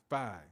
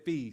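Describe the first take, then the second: First: The vowel sounds like 'eye'. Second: The vowel sounds like 'ee'. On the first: The speaker calls it right. "It's it's phi" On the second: The speaker calls it wrong. "Sorry, I said fee"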